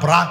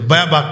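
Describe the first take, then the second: First: The word is said as 'brak', with an r. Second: The word is said as 'bebak', without an r. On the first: The speaker calls it right. "বেবাক না ব্রাক" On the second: The speaker calls it wrong. "উনি তো দাঁত পড়ে গেছে এই জন্য উচ্চারণ করতে পারে না"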